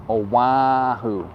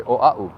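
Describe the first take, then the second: First: Oahu slow, with a w and h, oh-wa-hoo; mock the tourist: Oahu drawn out as oh-wa-hoo; slow, exaggerated oh-wa-hoo for Oahu; wrong pronunciation. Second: Oahu said quickly as oh-ah-oo; the local way: Oahu smooth, no w or h; correct Hawaiian. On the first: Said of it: "We don't say Oahu". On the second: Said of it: "We say Oahu". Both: Shown as a demonstration.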